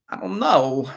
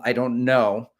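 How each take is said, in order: First: A hint of Christopher Walken; Christopher Walken impression. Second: Said in the usual way. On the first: Shown as a demonstration. Runner trying a Walken line on his own words, light impression. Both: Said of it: "Sounds like Christopher Walken".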